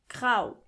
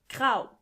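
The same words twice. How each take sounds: No difference in how they are said.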